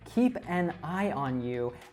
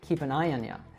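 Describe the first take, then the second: First: The words are separate and you is full. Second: The words are linked and you becomes ya.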